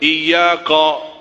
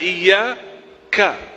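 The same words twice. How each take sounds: First: The final syllable is said without spread lips. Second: The final syllable is said with smiling lips. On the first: The speaker calls it wrong. "Saya sering mendengar orang baca iyyaka" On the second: The speaker calls it right. "padahal iyyaka. Coba senyum"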